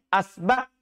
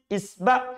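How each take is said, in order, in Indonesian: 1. Kata itu diawali vokal a. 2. Kata itu diawali vokal i. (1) "Bisa juga di fathah hamzanya" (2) "Hamzanya itu bisa di kasro"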